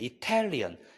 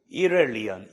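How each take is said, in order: First: The t is said as a clear t. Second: The t is said as a flap. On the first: The speaker calls it right. "트라고 발음을 확실히 쏴줘야 돼요" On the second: The speaker calls it wrong. "이렐리언이라고는 안 해요"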